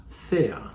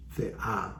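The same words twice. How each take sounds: First: Thea stressed on THE, drawn out slowly; stress on first syllable. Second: Thea with the final A stressed; stress on last syllable. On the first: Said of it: "put the accent on the wrong letter". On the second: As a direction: say Thea as the-AH, goddess. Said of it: "so the accent is on the A". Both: Shown as a demonstration.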